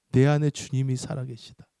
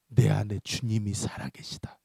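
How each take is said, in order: First: Said in the usual way. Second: Low, slow, whispery avowal; solemn declaration. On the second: Retold or imitated. Pastor warns the demon, low and hushed. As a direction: declare it slowly, hushed and grave.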